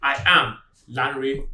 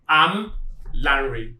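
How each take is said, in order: First: The words I and am are said separately. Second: The words I and am are contracted. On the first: The speaker seems less competent in pronunciation. The speaker calls it wrong. "Do not say" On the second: The speaker sounds competent in English pronunciation. The speaker calls it right. "You should say"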